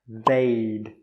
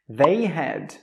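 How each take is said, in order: First: Had is shortened to a d sound. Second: Had is said as a separate full word. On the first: "we say I'd, she'd, he'd, they'd" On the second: "we normally don't say the word had"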